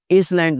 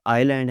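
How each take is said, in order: First: इसलैंड with the s sounded; mispronounced S. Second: आइलैंड with no s; silent S. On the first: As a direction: say इसलैंड as iss-land. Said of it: "इसलैंड नहीं है". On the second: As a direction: say आइलैंड as eye-land. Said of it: "एस silent है". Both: Shown as a demonstration.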